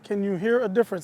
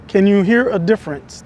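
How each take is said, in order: First: Low background rumble is filtered out of the sound. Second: Low background hum from an air conditioner is audible. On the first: "The low pass filter on the mic" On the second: "There's no low pass filter on"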